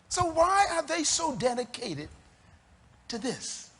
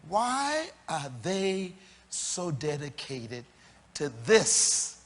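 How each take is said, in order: First: It is said at normal speed. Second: It is said slowly.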